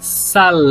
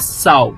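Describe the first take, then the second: First: The final L sounds like a long, drawn-out U. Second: The final L sounds like a very short U. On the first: The speaker calls it right. "é sal" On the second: The speaker calls it wrong. "não é sal no espanhol"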